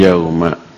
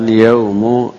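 First: The word ends in an a vowel. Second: The word ends in a u vowel. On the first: The speaker calls it right. "tapi yauma" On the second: The speaker calls it wrong. "bukan yaumu atau yaumi"

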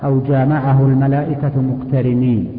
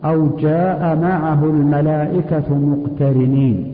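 First: The vowel is cut short. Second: The vowel is drawn out long. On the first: The verse takes on a corrupted meaning. The speaker calls it wrong. "هذا يحدث معنى فاسدا" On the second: The verse keeps its correct meaning. The speaker calls it right. "لا بد من المد"

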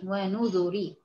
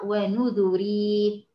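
First: The word ends in a short i vowel. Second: The word ends in a long ii vowel. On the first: The ending as it is written and read. "ري ري كسره فقط" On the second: The original form before the letter was dropped. "اصلها ونذري"

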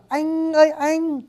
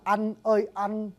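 First: It is said with a northern Vietnamese accent. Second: It is said with a southern Vietnamese accent. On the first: "Tiếng Bắc đọc là anh ơi anh" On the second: "cái âm anh của người Nam là anh ơi anh"

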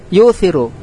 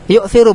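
First: The hamzah is softened into a vowel-matching letter. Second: The hamzah glottal stop is clearly pronounced. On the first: "ini disebut bacaan tashil" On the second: "yang menetapkan hamzah disebut bacaan tahqiq"

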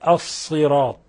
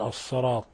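First: The vowel after ṣād is a clear i. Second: The vowel after ṣād leans toward a. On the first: The speaker calls it right. "والصواب الصراط" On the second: The speaker calls it wrong. "يشوبون صوت الصاد المكسور بالمفتوح، فهو أقرب إلى الفتح"

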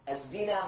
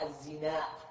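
First: The final vowel is short with no glottal stop. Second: The final vowel is lengthened and ends in a stop. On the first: "مقصورا" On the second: "وقد يمد"

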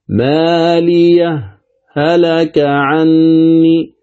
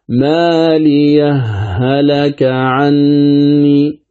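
First: A brief silent stop separates the two h sounds. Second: The two h sounds merge into one doubled h. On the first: "اسمع السكت" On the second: "أما الإدغام"

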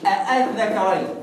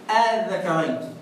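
First: The second hamza is a full glottal stop. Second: The second hamza is softened toward a long vowel. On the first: This is the word's original form. "هي أصلها إيه؟" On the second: This is how the recited reading renders it. "هنا بقى الكلام مفيش بقى كده"

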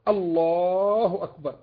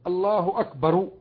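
First: The last word ends without a vowel. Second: The last word ends with a short vowel. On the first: The speaker calls it right. "الله أكبر بالتسكين هكذا" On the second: The speaker calls it wrong. "من اللحن في الأذان أن يقول الله أكبر"

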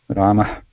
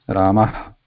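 Both takes have the same delivery.

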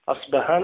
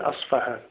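First: The consonant after the s is b. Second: The consonant after the s is f. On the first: "فهناك من لا يستطيع أن ينطق أصبهان" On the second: "يقول أصفهان"

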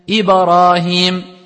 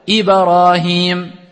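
First: The b bounce is exaggerated into an a vowel. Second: The b bounce is exaggerated into an a vowel.

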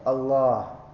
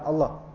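First: The vowel between l and h is lengthened. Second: The vowel between l and h is short. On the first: The speaker calls it right. "Agak panjang sedikit" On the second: The speaker calls it wrong. "Bukan Allah. Salah kan?"

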